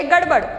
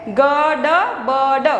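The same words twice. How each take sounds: First: "गड़बड़" short, as one joined word; all together. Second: "गड़बड़" slowly, each letter sound separate; slow reading. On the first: Teacher answers how to read it, "गड़बड़" all together. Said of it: "एक साथ में ही हमें पढ़ना है". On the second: Teacher introduces a word to pupils, "गड़बड़" slowly sounded out. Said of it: "आप slowly पढ़ सकते हो". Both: Shown as a demonstration.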